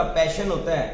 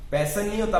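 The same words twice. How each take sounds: First: पैशन said with a clear sh sound, paishan; the right way, पैशन with sh; correct pronunciation. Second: पैशन said with a plain s sound, pesan; the wrong way, पैशन as pesan; wrong pronunciation. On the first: Interviewer coach showing the right पैशन with sh. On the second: Interviewer coach showing the wrong पैशन as pesan. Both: Shown as a demonstration.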